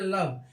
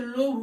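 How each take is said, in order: First: The vowel is a short 'uh' sound. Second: The vowel is a long 'oh' sound. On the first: The speaker calls it right. "लेकिन ये लव हम पढ़ते लव" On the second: The speaker calls it wrong. "इस हिसाब से लोभ होना चाहिए"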